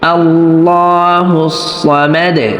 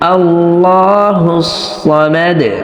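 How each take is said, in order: No difference in how they are said.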